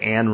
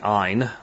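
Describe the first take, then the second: First: The name does not rhyme with 'mine'. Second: The name rhymes with 'mine'. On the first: The speaker calls it wrong. "a lot of people say Ayn Rand" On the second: The speaker calls it right. "It's actually Ayn, as though it were I-N-E, or like for mine"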